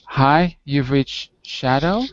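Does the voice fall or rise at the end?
rise. The voice rises at the end, like a question. It sounds like a question. The speaker calls it wrong. "you sometimes sound like you're asking a question"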